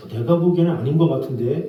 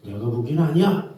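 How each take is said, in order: First: Disagree gently, leaving room; tactful disagreement. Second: Flat-out "아니야", picking a fight; blunt contradiction. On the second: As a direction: shut the other person down. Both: Shown as a demonstration. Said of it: "싸우자는 거죠".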